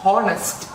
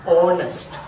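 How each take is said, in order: First: Slow "honest" mispronounced as "hon-est", H sounded. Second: Firm, loud "honest" as "on-est", H dropped; silent H in HONEST. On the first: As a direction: wrongly say "honest" with an audible H. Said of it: "not honest". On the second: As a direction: say "honest" starting on the O, no H. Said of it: "it is". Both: Shown as a demonstration.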